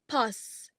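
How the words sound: It is said with a General British vowel. "general British, in words like pass, the vowel is pronounced as a"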